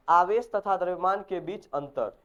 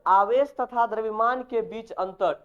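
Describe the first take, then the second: First: Said in the usual way. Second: Slow, clearly spaced topic title, a little higher and louder; slow dictation. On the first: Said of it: "यहाँ तक तुम याद करके लाएगा". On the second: Shown as a demonstration. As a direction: spell out the heading "आवेश तथा द्रव्यमान के बीच अंतर" word by word for students to write. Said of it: "ये टॉपिक खत्म करके आना". (धीमे, साफ़ लिखवाने वाले अंदाज़ में)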